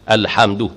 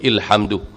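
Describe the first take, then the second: First: The word begins with an a vowel. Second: The word begins with an i vowel. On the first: The speaker calls it right. "mesti mula dengan fathah" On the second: The speaker calls it wrong. "ataupun ilhamdu"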